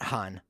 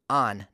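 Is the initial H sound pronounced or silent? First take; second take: pronounced; silent. First: The word begins with an audible H sound. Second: The word begins directly with the vowel sound. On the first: The speaker calls it wrong. "not Han" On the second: The speaker calls it right. "on, not Han"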